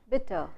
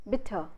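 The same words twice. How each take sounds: The two takes are said the same way.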